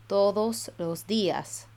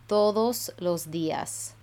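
The two takes are said the same way.

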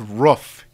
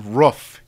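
First: The word is said with a regional vowel. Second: The word is said with a regional vowel.

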